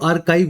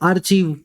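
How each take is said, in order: First: The middle sound is a 'k' sound. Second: The middle sound is 'ch' as in church. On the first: The speaker calls it right. "इसको आर्काइव बोला जाता है" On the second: The speaker calls it wrong. "इसको बोलते हो आप Hindi medium वाले आर्चीव। ये आर्चीव नहीं होता"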